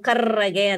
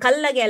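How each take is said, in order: First: The middle consonant is an r sound. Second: The middle consonant is an l sound. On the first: The speaker calls it right. "ಕರ್ರಗೆ ಅಂತ ತಿದ್ಲಿಕ್ಕೆ" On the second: The speaker calls it wrong. "ಅದು ಕಲ್ಲಗೆ ಅಲ್ಲ ಕಣೋ"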